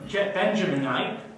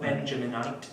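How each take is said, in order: First: The word is said at a normal pace. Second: The word is said very quickly.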